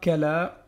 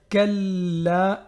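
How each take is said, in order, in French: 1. Le son l est court et simple. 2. Le son l est double et tenu. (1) "et non pas kala" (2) "le lam, il est doublé"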